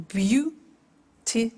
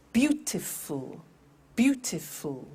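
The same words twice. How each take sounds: First: Beautiful split slowly into three beats, louder; syllables spelled out slowly. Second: Said in the usual way. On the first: Shown as a demonstration. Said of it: "how many syllables are there". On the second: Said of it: "Three syllables".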